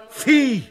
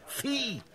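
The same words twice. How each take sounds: First: „Vieh“ laut und hoch herausgebrüllt; wütender Schrei. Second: Leises, angewidertes Ausspucken des Wortes „Vieh“; „Vieh“ gedämpft und voller Ekel; verächtlich gezischt. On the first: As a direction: schleudere ihnen „Vieh“ entgegen. (lauter, höherer Wutschrei auf „Vieh“) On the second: (leise vor Abscheu) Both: Acted. Contemptuous outburst at the rabble.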